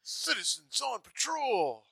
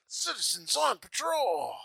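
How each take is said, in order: First: Slow, high, proud shout-out; proud cop announcement. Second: Slow, high, proud repeat; proud cop announcement. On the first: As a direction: announce it like a dorky hero. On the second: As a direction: announce it again like a dorky hero. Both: Retold or imitated. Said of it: "he's like a sweet Chuck".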